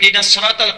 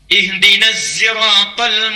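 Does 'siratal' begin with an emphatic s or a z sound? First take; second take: emphatic s; z sound. First: 'Siratal' begins with an emphatic s sound. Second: 'Siratal' begins with a z sound. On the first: This is the common reading most people use. "pakai sad" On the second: This is the reading of another transmission. "pakai zain"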